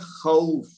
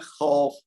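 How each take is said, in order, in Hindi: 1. स्वर नर्म तरीके से बोला गया है, फिसलते हुए दो-स्वर की तरह। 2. स्वर सख़्त तरीके से बोला गया है, उर्दू अंदाज़ में। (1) "ये नर्म अदा करने से मुराद यहाँ ये है खौफ" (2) "हम कहते हैं खौफ"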